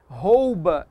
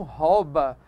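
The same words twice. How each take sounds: First: "rouba" with a full OU diphthong, ROH-oo-ba; slow, loud, careful ROU in "rouba"; correct pronunciation. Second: "rouba" with an open O, RAW-ba; slowly shown mistake, "rouba" as RÓ-ba; wrong pronunciation. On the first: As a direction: glide from O to U in "rouba". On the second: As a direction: lose the U glide in "rouba". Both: Shown as a demonstration. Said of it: "e não rouba".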